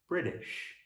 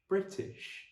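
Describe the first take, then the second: First: The middle consonant sounds like a soft d. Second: The middle consonant is a crisp t sound. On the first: This is the American pronunciation. "Where an American would say British" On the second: This is the British pronunciation. "Remember to hit the t sound"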